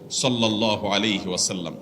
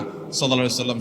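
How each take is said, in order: First: It is said slowly and lovingly. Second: It is said hurriedly and fast.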